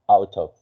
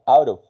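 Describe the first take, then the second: First: It is said in a British English accent. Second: It is said in an American English accent. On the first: "in England England English you say" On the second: "in U S A English, you say"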